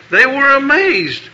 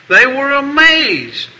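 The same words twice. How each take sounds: First: Said in the usual way. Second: They were AMAZED drawn out slowly, leaning on "amazed"; slow down and land the word "amazed"; a preacher hammering home the answer; emphatic slow echo. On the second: Shown as a demonstration. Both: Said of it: "and they were all what?".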